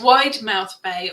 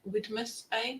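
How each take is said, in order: First: The first part is said as 'wide mouth'. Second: The first part is said as 'widmouth'.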